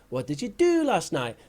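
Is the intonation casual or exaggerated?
exaggerated. The intonation is a marked, exaggerated textbook pattern. The speaker calls it wrong. "teaching someone that"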